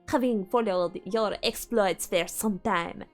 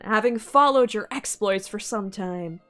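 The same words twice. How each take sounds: First: It is read in a put-on French accent. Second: It is read in the speaker's plain accent.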